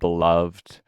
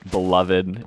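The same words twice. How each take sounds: First: The ending -ed adds no extra syllable. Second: The ending -ed is an extra 'id' syllable.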